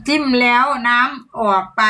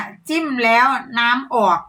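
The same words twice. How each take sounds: First: Careful demo phrase. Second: Slow demo phrase. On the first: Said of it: "ให้พูดอะไรได้บ้าง". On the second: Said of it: "เพิ่นให้โค้ดมาแล้วเด้อ". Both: Shown as a demonstration.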